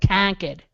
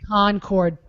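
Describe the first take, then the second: First: It is said in a Massachusetts accent. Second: It is said in a general accent. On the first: "if you want the Massachusetts accent" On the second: "but it's"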